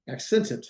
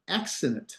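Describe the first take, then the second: First: "accented" with a clear "sent" in the middle; corrected pronunciation. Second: Said in the usual way. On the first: Shown as a demonstration. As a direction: enunciate "accented" so it differs from "accident". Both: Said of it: "not accident".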